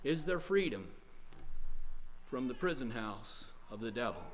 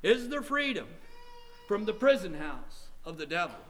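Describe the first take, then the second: First: Low-key grave question, dropping soft at the end; subdued questioning. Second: Insistent questioning. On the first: Preacher posing tonight's question, subdued. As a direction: pose it quietly, with a pause midway. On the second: Preacher repeating tonight's question, more urgent. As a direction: press the question harder. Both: Real, not acted.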